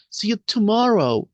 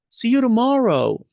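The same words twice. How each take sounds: First: The t in tomorrow is a clear t. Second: The t in tomorrow sounds like an r. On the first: "Si dicen la T, el músculo se tensa" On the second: "si no dicen la T"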